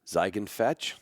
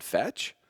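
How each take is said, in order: First: "Fetch?" asked with a rising question tune, not a command. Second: "Fetch?" lifted high at the end like a question. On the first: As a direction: ask "Fetch?" gently, like a question. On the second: Owner testing if his drugged dog remembers: "Fetch?" with a rising question. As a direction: offer "Fetch?" as a hopeful question, not an order. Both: Retold or imitated. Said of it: "I said it with a question mark".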